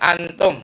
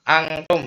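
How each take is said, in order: No difference in how they are said.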